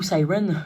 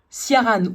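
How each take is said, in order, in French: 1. Le nom est prononcé avec un accent anglais. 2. Le nom est prononcé avec un accent français.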